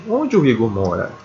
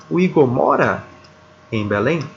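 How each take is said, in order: First: "onde" stressed, then the pitch falls through "mora"; wh-question, tune falling to "mora". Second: "Belém" ends on a clear upward rise; yes-no question, voice lifting on "Belém"; rising question tune. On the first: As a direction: ask "onde o Igor mora" with the voice dropping at the end. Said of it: "Olha como a entonação ela, ela cai". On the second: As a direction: ask "O Igor mora em Belém?" with the pitch going up at the end. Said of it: "Pela entonação, você percebe". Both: Shown as a demonstration.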